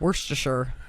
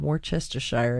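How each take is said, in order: First: The ending is reduced, with no full 'shire'. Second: Every syllable is spelled out, including a full 'shire'. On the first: The speaker calls it right. "It's not even Shire. Don't add the Shire" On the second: The speaker calls it wrong. "a man who believed in enunciating everything"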